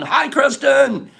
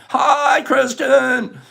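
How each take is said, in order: First: Slow, high, drawn-out hello; stretched greeting. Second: Shouted greeting. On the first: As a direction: sing out her name slowly. Greeting a viewer in chat. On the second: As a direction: call her name across the room. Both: Real, not acted.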